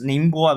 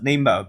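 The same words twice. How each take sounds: First: The name is said with Mandarin sounds and tones. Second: The name is said with English-like sounds, without tones.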